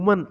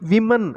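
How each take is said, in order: First: The first vowel sounds like 'u', as in 'wum'. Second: The first vowel sounds like 'i', as in 'wim'. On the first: The speaker calls it wrong. "உமன் அப்படின்னு வாசிக்கக்கூடாது" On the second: The speaker calls it right. "விமன் அப்படின்னு வாசிக்கணும்"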